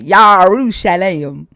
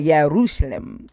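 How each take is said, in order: First: The word starts with a 'yar' sound. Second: The word starts with a 'yeh' sound. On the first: The speaker calls it wrong. "But he got Yarushalem" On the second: The speaker calls it right. "the way to say it in Hebrew is Yerushalem"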